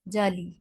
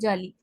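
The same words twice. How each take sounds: First: Both vowels are held long and drawn out. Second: The word is said quickly with clipped vowels. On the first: The speaker calls it right. "एक तो अलिफ मद्दा भी है इसमें और दूसरा या मद्दा भी है" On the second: The speaker calls it wrong. "जल्दी से कह के छोड़ देते हैं"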